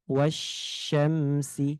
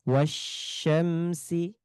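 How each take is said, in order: No difference in how they are said.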